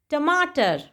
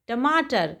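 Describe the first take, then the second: No difference in how they are said.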